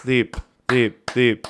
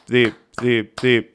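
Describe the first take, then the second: No difference in how they are said.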